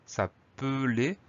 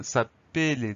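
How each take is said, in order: First: "s'appeler" said slowly as sa-peu-lé; E pronounced as schwa. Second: "s'appeler" said wrongly as sa-pé-lé; mispronounced with closed E. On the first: Teacher showing how s'appeler is pronounced, middle E as "eu". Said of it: "le premier E se prononce E". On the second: Teacher warning what a double L would give, s'appeler as "sa-pé-lé". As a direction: middle E of "s'appeler" turned into a clear "é". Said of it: "sinon ça donne". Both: Shown as a demonstration.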